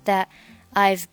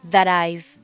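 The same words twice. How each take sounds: First: The final t of that is silent. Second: The t of that links into I've. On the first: "选择that 末尾的清辅音不发音就是That I've" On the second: "你可以选择两个单词连读成That I've"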